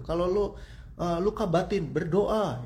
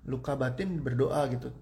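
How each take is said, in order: First: Higher and louder, berdoa pushed out like an order; preachy loud advice. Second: Said in the usual way. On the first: Retold or imitated. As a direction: imitate people loudly telling you to just pray. (nasihat keras yang ditirukan, lebih tinggi dan lantang) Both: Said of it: "Kan banyak yang bilang gitu".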